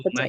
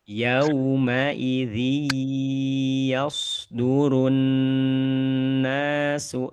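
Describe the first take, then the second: First: Everything is read flatly without any holding. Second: The nasal sounds are held and lengthened. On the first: The speaker calls it wrong. "Nggak ada penahanan-penahanan. Rata aja semuanya" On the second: The speaker calls it right. "penahanan-penahanan model kayak gitu"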